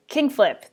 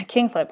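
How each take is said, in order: First: "King Flip" called out, higher in pitch; calling out again. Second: Said in the usual way. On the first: Real, not acted. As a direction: call "King Flip" up high to get attention. Calling the name again, louder.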